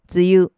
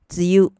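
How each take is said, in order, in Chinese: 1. 这个词读的是日语训读。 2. 这个词读的是日语训读。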